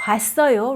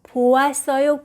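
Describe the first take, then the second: First: The o and a vowels merge into wa. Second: The o and a vowels are said separately. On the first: "they tend to use 봤어요" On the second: "보았어요 is not wrong"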